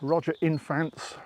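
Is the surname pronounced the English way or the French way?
English. The surname is pronounced the English way.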